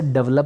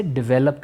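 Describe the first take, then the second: First: डेवलप said as DEV-lup, two syllables, stress on the first; the everyday wrong way: डेवलप as dev-lop; common mispronunciation. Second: डेवलप said as di-VEL-up, three syllables, stress on the middle; the right way: डेवलप with a short di- and a stressed VEL; correct pronunciation. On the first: Teacher shows students the usual wrong डेवलप, said as dev-lop. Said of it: "हम लोग अक्सर डेवलप बोलते हैं". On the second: Teacher gives students the correct डेवलप, said di-VEL-up. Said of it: "सही में से इसको जब प्रोनाउंस करेंगे". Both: Shown as a demonstration.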